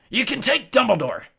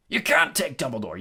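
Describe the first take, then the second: First: High, loud, outraged yell. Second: A restrained yell; mild yell. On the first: Hagrid defends Dumbledore against Malfoy, yelling. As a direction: yell at full pitch. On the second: Hagrid objects to losing Dumbledore, yelling mildly. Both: A narrator's reading. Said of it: "yelled Hagrid".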